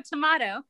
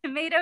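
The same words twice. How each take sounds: First: Tomato as tuh-MAH-toh; imitated British "tomato", long AH; British-style tomato. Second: Tomato as tuh-MAY-doh; American tomato. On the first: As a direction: say tomato with an open AH in the middle. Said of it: "you say tomato". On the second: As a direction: say tomato with an AY in the middle. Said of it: "we say tomato". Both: Shown as a demonstration.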